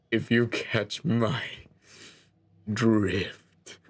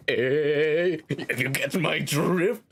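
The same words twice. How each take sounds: First: Slow, with a long pause before drift; knowing pun. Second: Nudging pun. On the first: Narrator punning to the player on the beach, slow knowing delivery. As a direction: draw it out, then drop the pun. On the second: Narrator repeating the pun to the player, nudging questioning delivery. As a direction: nudge them with a drawn-out questioning lilt. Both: Pretend.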